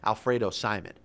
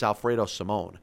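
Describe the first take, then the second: First: The surname ends with a short 'mon' sound. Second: The surname ends with a long 'moan' sound. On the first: The speaker calls it wrong. "everybody is pronouncing his name Alfredo Simon. That's not the way his name is pronounced" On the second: The speaker calls it right. "Get it right. It's Alfredo Simone"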